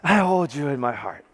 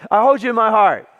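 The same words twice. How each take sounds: First: Lower, hammed-up sweet nothing; mock romantic. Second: Louder, ringing scripture reading; preaching declaration. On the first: Shown as a demonstration. Showing married couples how to help the relationship, mock romantic. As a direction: demonstrate a swoon-worthy love line. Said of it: "You gotta say it like that". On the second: Retold or imitated. Resuming Paul's letter for the congregation, loud and declarative. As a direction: proclaim it to the whole room.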